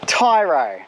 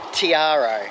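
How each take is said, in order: First: The name is said without the middle vowel. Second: The name is said with the middle vowel. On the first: This is how locals say the name. The speaker calls it right. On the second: This is how the family has always said it. The speaker calls it wrong.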